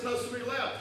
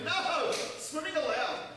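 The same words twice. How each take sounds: First: It runs on with no pause after no. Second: It has a clear pause after no. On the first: Swimming is forbidden here. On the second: Swimming is permitted here.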